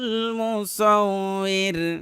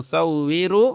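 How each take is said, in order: First: The word ends on a bare r sound. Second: The word ends with ru, joined onward. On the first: The reciter stops after this word. "যেহেতু তামসি এই জন্য এটা রাটা সাকিন হয়ে গেছে" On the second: The word is joined to the next word. "যদি মিলায় পড়ি তাহলে কিন্তু রু পড়তে হবে"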